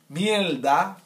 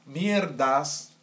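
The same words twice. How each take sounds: First: "mierda" with the r turned to l, miel-da; Cuban-style pronunciation. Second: Said in the usual way. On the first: Shown as a demonstration. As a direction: say "mierda" as "mielda", louder, rising at the end. Repeats word in contrasting pronunciations.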